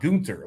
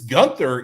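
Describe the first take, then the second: First: The name is said the German way. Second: The name is said the English way. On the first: "the two dots over the U is Gunter" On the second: "this Gunther"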